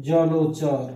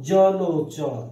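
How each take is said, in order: No difference in how they are said.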